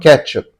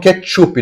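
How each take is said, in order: First: It is said with English sounds. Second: It is said with Brazilian Portuguese sounds. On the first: This is how the critics do not say it. "não ketchup" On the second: This is how the critics actually say it. "Eles falam ketchup"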